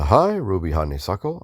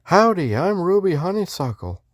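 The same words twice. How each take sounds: First: Said in the usual way. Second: Put-on Western accent, pitched way up, friendly; high-voiced Texan greeting in a Western accent. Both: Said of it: "I was doing a Western accent".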